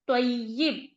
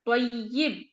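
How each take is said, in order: No difference in how they are said.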